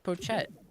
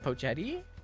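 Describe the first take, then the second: First: The word ends on a plain 't' sound. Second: The word ends with an added 'ee' vowel. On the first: The speaker calls it right. "It's just Pochette" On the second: The speaker calls it wrong. "we don't even know Pochetti"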